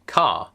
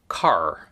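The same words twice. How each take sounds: First: Car as "cah", final r silent; non-rhotic car. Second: Car with the final r sounded; rhotic car. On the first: Comparing accents for viewers, non-rhotic car. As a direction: drop the r from car, leaving a long open vowel. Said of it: "So I say car". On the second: Imitating the other accent for viewers, rhotic car. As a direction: curl hard into the r of car. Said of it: "a rhotic accent might go car". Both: Shown as a demonstration.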